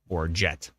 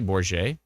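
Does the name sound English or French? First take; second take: English; French. First: The name is said with a plain English sound. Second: The name is said with a French-like sound. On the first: The speaker calls it right. "the least French-sounding jet" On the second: The speaker calls it wrong. "I'm trying to pronounce it with like a with like a French-ish accent"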